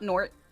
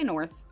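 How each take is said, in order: First: The word ends with a hard 't' sound. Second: The word ends with a soft 'th' sound. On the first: "Drop the H. Hard T" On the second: "We don't say north"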